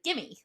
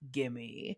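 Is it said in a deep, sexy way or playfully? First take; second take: playful; deep. First: It is said in a light, playful way. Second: It is said in a deep, sexy voice.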